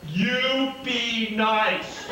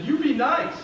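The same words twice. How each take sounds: First: Slow, firm warning with a laugh; stretched-out mock-stern order; stern scolding. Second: Higher, louder playful command; mock-stern instruction to behave; bossy pointing scold; high stern order. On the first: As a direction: point and tell him to behave. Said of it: "That's exactly how I did it". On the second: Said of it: "and I said".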